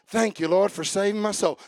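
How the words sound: It is said flatly, like a robot.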